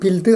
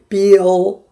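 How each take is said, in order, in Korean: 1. L은 밝은 소리예요. 모음 같은 소리가 끼지 않아요. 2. L은 어두운 소리예요. 'eu' 소리가 들어가요. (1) "아니고" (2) "이렇게 들어가요"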